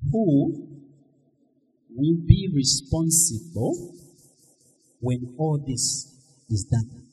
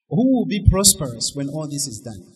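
First: The question is said slowly. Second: The question is said at normal speed.

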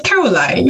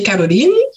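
First: The name is said the English way. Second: The name is said the Portuguese way.

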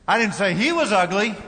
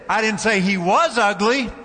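First: The stress is on the word 'he'. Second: The stress is on the word 'was'. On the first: The speaker said it about someone else. "Might have said his sister was ugly" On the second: The person is still ugly now. "He still is ugly"

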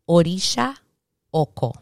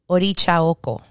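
First: Orisha is said with a 'sh' sound. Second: Orisha is said with a 'ch' sound. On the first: This is the non-Spanish pronunciation. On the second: This is the Spanish pronunciation.

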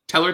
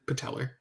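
First: The word starts without a P sound. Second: The word starts with a P sound. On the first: "Is it a silent P?" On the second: "Or is it patellar?"

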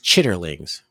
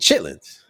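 First: The word is said in full, three syllables. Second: The word is shortened to two syllables. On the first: "the spelled out name is Chitterlings" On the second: "that's not how we be saying it"

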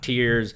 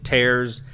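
First: The vowel rhymes with fears, like crying. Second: The vowel rhymes with cares, like ripping. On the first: It refers to drops shed when crying. The speaker calls it right. "not tears" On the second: It refers to ripping something apart. The speaker calls it wrong. "it's actually tears"

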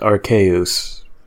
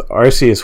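First: The first syllable sounds like 'ark'. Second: The first syllable sounds like 'arse'. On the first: The name evokes an archaic god. "that's like, like archaic god in Latin" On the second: The name contains a rude joke. "Arceus works because Arce means butt"

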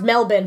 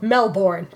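First: The second syllable is reduced, with no R. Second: The second syllable is full, with an R. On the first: The speaker calls it right. "It's pronounced Melbourne" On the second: The speaker calls it wrong. "but it's spelled Melbourne"

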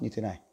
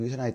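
First: The voice is low and quiet. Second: The voice is at ordinary volume. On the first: "cái giọng với cái âm lượng thấp như thế này" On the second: "chúng ta lại dùng cái giọng bình thường như thế này thôi"

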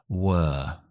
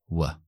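First: The word is said with a full vowel. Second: The word is said with a reduced vowel.

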